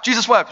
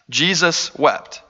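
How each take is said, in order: First: Quick, higher-pitched recital; pat, memorized reply; trivia answer. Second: Very slow, weighted delivery; grave and unhurried; solemn scripture reading. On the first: Shown as a demonstration. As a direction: rattle it off like a quiz answer. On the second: A narrator's reading. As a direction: read it slowly, letting each word land.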